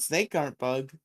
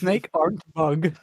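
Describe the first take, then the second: First: Snake aren't bug, said as a dumb caveman line; broken grammar joke. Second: Snake aren't bug, said slowly and flatly; slow deadpan repeat. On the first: Joking host repeats the broken phrase flatly. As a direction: play it as a clumsy caveman phrase. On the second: Co-host echoing the joke in slow deadpan. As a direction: drag the words out deadpan. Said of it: "repeating joke slowly". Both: Shown as a demonstration.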